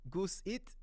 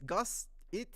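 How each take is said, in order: First: "Goose It" with a long oo in Goose, questioning; unsure name pronunciation. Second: "Gus It" with a short u in Gus, questioning; second pronunciation guess. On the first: Guessing at a viewer's name, unsure "Goose It" with long oo. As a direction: try "Goose It" with Goose like the bird. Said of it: "I don't know how to pronounce your name". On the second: Guessing at a viewer's name, slow unsure "Gus It" with short u. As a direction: try "Gus It" slowly, Gus rhyming with bus. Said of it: "I don't know". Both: Real, not acted.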